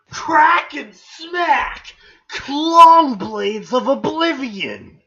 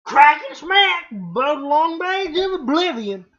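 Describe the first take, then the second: First: Slow, loud, high proclamation; hammed-up legendary weapon reveal; dramatic announcer. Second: Loud, high, badly faked Southern hillbilly; hammed-up hillbilly Southern accent; shitty Southern accent. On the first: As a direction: draw each word out grandly. Reads weapon names dramatically. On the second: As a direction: botch a Cockney request into a Southern twang. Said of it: "that's shitty Southern".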